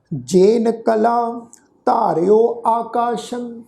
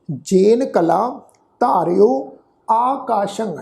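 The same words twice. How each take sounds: First: Slow, drawn-out reading of ਜੇਨ ਕਲਾ ਧਾਰਿਓ ਆਕਾਸ਼ੰ in one flow; slow recitation. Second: ਜੇਨ ਕਲਾ set apart with a pause before ਧਾਰਿਓ ਆਕਾਸ਼ੰ; slow, with a break after ਕਲਾ; phrased recitation. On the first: Teacher giving the first model reading to the sangat, slow recitation. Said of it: "ਇਹਨੂੰ ਸੁਣੋ ਜੀ". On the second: Teacher repeating for the sangat, split into two slow phrases. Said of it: "ਸਾਧ ਸੰਗਤ ਸੁਣੋ ਫਿਰ ਜੀ". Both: Shown as a demonstration.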